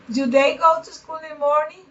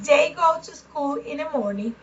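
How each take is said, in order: First: "Do they go to school in the morning?" with a rising question tune; question intonation. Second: Said in the usual way. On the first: Shown as a demonstration. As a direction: ask it, the voice climbing at the end. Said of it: "intonation change when you have affirmative and interrogative". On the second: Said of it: "intonation change when you have affirmative".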